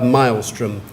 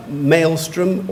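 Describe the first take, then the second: First: Maelstrom said MILE-strum; second pronunciation. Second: Maelstrom said MAYL-strum; first pronunciation. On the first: Pronouncer offers a speller the other option, maelstrom as MILE-strum. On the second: Pronouncer offers a speller the first option, maelstrom as MAYL-strum. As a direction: say maelstrom so it starts like "mail". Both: Shown as a demonstration. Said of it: "You have two pronunciations".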